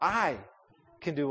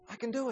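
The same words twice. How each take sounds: First: The word "I" carries the stress. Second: The word "can" carries the stress. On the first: The speaker personally is the one able. "put the emphasis on me, I, me. Name yourself" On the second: It is possible, even a reality. "put the emphasis on the word can"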